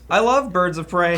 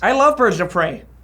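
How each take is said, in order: First: It is read in the speaker's normal voice. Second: It is read in an imagined voice of her.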